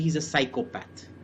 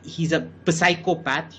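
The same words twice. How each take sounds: First: The P at the start of psychopath is silent. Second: The P at the start of psychopath is pronounced. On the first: The speaker calls it right. "You say" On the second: The speaker calls it wrong. "You don't say"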